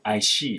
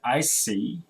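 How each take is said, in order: First: The last word begins with a sh sound. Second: The last word begins with an s sound. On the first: The speaker calls it wrong. "they say I see" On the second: The speaker calls it right. "C versus she"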